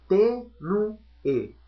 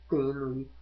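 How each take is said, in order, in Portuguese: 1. A palavra é dita devagar, com as sílabas separadas. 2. A palavra é dita de forma fluida, com uma terminação deslizante.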